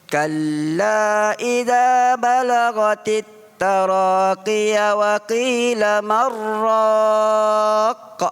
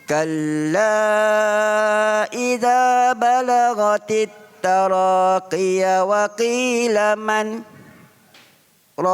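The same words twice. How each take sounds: First: It runs on with no stop after man. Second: There is a brief stop after man.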